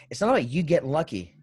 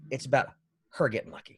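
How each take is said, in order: First: "you" set up for contrast; stress on you. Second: "her" picked out after a short pause; pause, then lean on "her" as the correction; stress on her. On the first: Teasing the co-host about luck, stress on "you". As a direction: lean on "you" as the wrong person. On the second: Teasing the co-host about luck, stress on "her". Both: Real, not acted. Corrects who is getting lucky.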